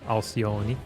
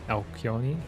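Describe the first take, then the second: First: The c is said with a soft s sound. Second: The c is said with a hard sound.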